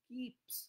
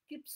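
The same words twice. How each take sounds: First: The vowel is a long 'ee' sound. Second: The vowel is a short 'i' sound. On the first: The speaker calls it right. "দুটো ই আছে বলে উচ্চারণটা কি হচ্ছে কিপস" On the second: The speaker calls it wrong. "কিপস নয়"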